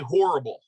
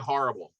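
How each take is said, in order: First: It is said in a general American accent. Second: It is said in a Philadelphia accent. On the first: This is how other people say it. "People say horrible" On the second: This is how the speaker says it. "I say horrible"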